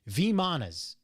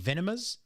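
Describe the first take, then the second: First: The M sound comes before the N sound. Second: The N sound comes before the M sound. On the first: The speaker calls it right. "Vimanas is, is how you pronounce" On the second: The speaker calls it wrong. "I was saying Venemas, so I was putting the N where the M was"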